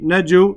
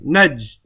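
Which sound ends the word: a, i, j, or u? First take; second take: u; j. First: The word ends with an added u vowel. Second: The word stops on the final consonant j. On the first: The letter carries a dhamma. The speaker calls it wrong. "I don't say" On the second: The letter carries a sukoon, with no vowel. The speaker calls it right. "I just stop on the jim for a second"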